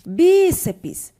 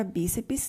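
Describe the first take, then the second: First: "Bíceps" with a loud, high, stretched first syllable; stress on BÍ. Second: Said in the usual way. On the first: Shown as a demonstration. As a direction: punch the BÍ in "Bíceps". (ênfase forte no BÍ de "Bíceps") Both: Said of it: "a sílaba tônica é o bi".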